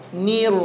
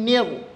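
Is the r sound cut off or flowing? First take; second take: flowing; cut off. First: The r sound flows on smoothly. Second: The r sound is cut off abruptly. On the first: The speaker calls it right. "ngalir aja" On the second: The speaker calls it wrong. "Maka salah nanti huruf ra ketika dia terputus... Enggak boleh"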